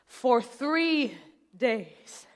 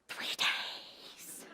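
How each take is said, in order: First: Said in the usual way. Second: Whispered, drawn-out repeat; emphatic whisper. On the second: Acted. Mother stressing how long her labor lasted, emphatic whisper.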